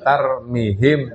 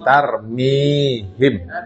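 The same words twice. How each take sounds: First: The vowel after the m is cut short. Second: The vowel after the m is held long. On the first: The speaker calls it wrong. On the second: The speaker calls it right. "Mine matobi"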